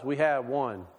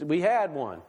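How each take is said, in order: First: "had" slow and weighted, pitch falling; stress on had. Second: Said in the usual way. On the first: Shown as a demonstration. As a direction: lean on the word "had". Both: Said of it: "Let me emphasize".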